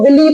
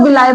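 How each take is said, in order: First: The word ends with an 'ee' sound. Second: The word ends with an 'eye' sound. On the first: "कुछ लोग विली pronounce करते हैं इसको" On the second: "कुछ लोग विलाय pronounce करते हैं"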